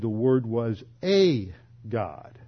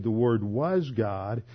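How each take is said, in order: First: "a" said as a long, separate "ay"; stress on A. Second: "was" drawn out slowly before "God"; stress on WAS. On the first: Quoting Jehovah's Witnesses' rival translation, "a" stressed as "ay". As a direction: slowly set off "a" as "ay" before "God". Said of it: "so it should be a God". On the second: Quoting Jehovah's Witnesses on the translation, slow stress on "was". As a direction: dwell on "was" in "the Word was God". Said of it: "It should be translated the Word was a God". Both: Retold or imitated.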